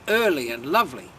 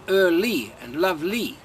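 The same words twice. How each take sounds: First: The final 'ly' sound is light and unstressed. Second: The final 'ly' sound is heavily stressed. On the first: The speaker calls it right. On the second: The speaker calls it wrong.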